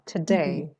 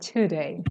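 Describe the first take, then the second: First: The stress is on the second syllable. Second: The stress is on the first syllable. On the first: The speaker calls it right. "The stress is on the second syllable" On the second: The speaker calls it wrong. "Don't say today"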